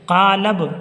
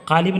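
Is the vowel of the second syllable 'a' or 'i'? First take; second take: a; i. First: The second syllable has an 'a' vowel. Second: The second syllable has an 'i' vowel. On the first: The speaker calls it right. "लाम पर ज़बर" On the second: The speaker calls it wrong. "क़ालिब ना पढ़िएगा"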